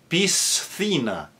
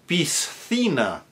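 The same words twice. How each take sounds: The two takes are said the same way.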